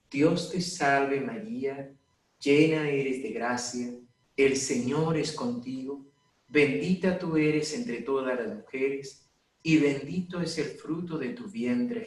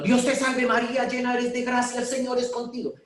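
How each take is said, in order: First: Slow, every phrase weighted and even; slow deliberate prayer. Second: Much higher and louder, rushed and agitated; heated prayer. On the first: Priest showing how to pray the rosary calmly, slow and measured. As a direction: pray it slowly, leaning on each phrase to calm the pulse. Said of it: "poniendo el acento en cada frase". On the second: Priest mocking people praying heatedly over someone who collapsed, frantic and high. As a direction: fire it off heatedly, pitched way up. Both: Shown as a demonstration.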